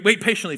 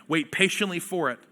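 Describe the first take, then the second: First: Wait hit first and firm; stress on wait. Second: Patiently leaned on, falling away; stress on patiently. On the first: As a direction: punch the word Wait. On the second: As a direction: press the word patiently. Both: Shown as a demonstration. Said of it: "Or wait".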